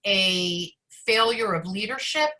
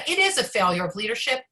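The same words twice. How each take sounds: First: Said in the usual way. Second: Emphatic IS, a firm correction; stress on IS. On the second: Real, not acted. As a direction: lean hard on "is", quicker and surer. Corrects own "perhaps" to certainty.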